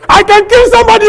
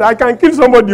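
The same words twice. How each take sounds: First: High, loud shout of I can kill somebody; shouted threat. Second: I can kill somebody said louder but calmer, bragging; milder boast. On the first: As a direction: bellow the threat. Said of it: "I say". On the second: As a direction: boast it rather than scream. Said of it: "I was forming and saying that". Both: Retold or imitated.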